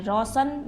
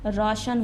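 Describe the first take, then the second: First: रोशन said with a plain s, rosan; रोशन with s instead of sh, as the misspelling reads; रोशन read out as rosan, the wrong way; wrong pronunciation. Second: रोशन said with a clear sh, roshan; रोशन with sh, the corrected way; रोशन pronounced roshan, sh sound clear; correct pronunciation. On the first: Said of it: "रोशन लिखा हुआ है तो रोशन नहीं होता है". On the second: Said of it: "रोशन नहीं होता है". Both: Shown as a demonstration.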